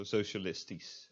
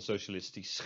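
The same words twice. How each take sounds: First: "socialistisch" ending in a plain "-tees"; final SCH as S. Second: "socialistisch" ending "-tees-kh" with scraped CH; wrong final SCH. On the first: Teacher showing SCH at word end, plain S. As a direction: finish "socialistisch" on S, no throat sound. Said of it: "is just pronounced as s". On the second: Teacher showing what not to say, scraped final SCH. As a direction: add a throat CH after the final S of "socialistisch". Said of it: "and not socialistisch". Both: Shown as a demonstration.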